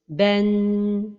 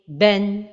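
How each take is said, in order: First: The final n is held for a long time. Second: The final n is short with no bounce. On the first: The speaker calls it wrong. "c'est de donner beaucoup de temps vers la fin de prononciation comme ceci" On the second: The speaker calls it right. "Donc la prononciation correcte est"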